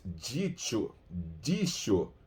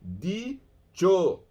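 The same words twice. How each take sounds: First: "Dicho" with a soft dj at the start; Portuguese-style pronunciation. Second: "dicho" with a hard d; Spanish pronunciation. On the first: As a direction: say "Dicho" as dji-cho. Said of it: "Não se habla como se habla em português". ("Dicho" com dji português) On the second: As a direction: say "dicho" crisply, with a plain d. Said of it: "Não, é di". ("dicho" com d espanhol) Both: Shown as a demonstration.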